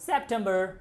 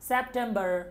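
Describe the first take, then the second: Both takes have the same delivery.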